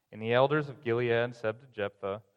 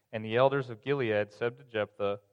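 The two takes are said the same way.

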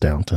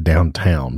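First: The second syllable sounds like 'ton'. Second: The second syllable sounds like 'town'. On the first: The speaker calls it right. "but it's Downton" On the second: The speaker calls it wrong. "I want to say Downtown"

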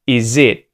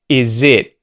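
The two takes are said the same way.

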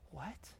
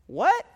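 First: It sounds exasperated, as if that was really dumb. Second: It sounds confused, as if not hearing the listener.

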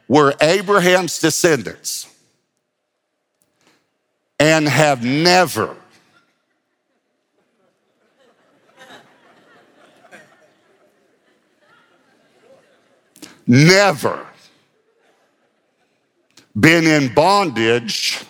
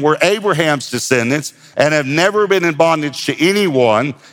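First: It is read slowly and deliberately. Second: It is read at a normal pace.

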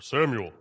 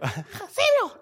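First: It is said in a normal voice. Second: It is said in a high, squeaky voice.

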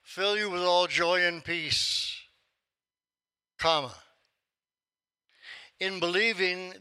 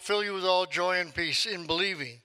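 First: There is a break after the word peace. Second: It runs on without a break after peace. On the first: Believing belongs with what follows, not with joy and peace. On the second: Joy and peace come through believing.

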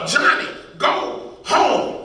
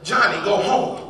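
First: It is said very loudly and forcefully. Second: It is said louder than a small voice.

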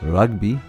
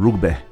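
First: It is said in a posh southern English accent. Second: It is said in a northern English accent. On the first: "by posh English southerners" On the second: "by English northerners"

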